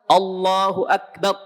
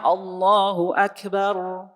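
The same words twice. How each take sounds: First: The r sound is cut off abruptly. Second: The r sound flows only slightly. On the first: "Nah itu syiddah. Akbar, tahan suaranya" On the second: "Kalau bainiyah"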